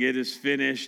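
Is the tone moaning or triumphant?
moaning. It is said in a moaning, defeated tone.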